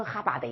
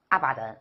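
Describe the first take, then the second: First: "哈巴德", starting with an h and losing the final n; badly mispronounced abandon. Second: "阿巴登", abandon said in Chinese syllables; mildly mispronounced abandon. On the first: Teacher mocking an impossible mistake, abandon garbled as "哈巴德". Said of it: "你不能读成哈巴德吧". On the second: Teacher showing a tolerable mistake, "阿巴登" in Chinese syllables. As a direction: say "阿巴登" with an open first vowel, no h. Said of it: "你把abandon顶多读成". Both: Shown as a demonstration.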